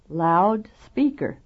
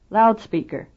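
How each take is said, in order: First: The second part is also loud and clear. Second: Only the first part is loud and stressed.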